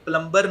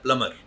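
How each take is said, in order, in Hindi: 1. b की आवाज़ बीच में बोली जाती है। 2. b की आवाज़ पूरी तरह छोड़ दी जाती है। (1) "ये प्लम्बर नहीं होता" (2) "बी इसमें साइलेंट है"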